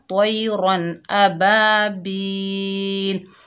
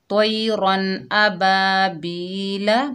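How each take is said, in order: First: The last word ends on a consonant. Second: The last word ends on a short vowel. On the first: The reader stops at the end of the verse. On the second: The reading continues into the next word.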